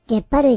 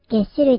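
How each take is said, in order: First: The word is pronounced 'gepparui'. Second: The word is pronounced 'gesshurui'. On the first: The speaker calls it wrong. "ゲッパ類じゃなくて" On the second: The speaker calls it right. "ゲッシュ類と読むこと覚えておいてくださいね"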